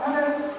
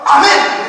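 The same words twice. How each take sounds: First: The word is mumbled and unclearly articulated. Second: The word is articulated clearly and distinctly. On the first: The speaker is like a baby who cannot yet speak. "처음에 애기가 뭐 말을 못하니까" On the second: The speaker firmly claims the promise as their own. "조금 더 발음이 뚜렷해지겠죠"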